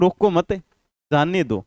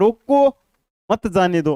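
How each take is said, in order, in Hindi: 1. 'mat' के बाद तुरंत विराम है। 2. 'roko' के बाद तुरंत विराम है। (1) "अगला है रोको मत" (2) "यहां पर भाव चेंज हो गया ना"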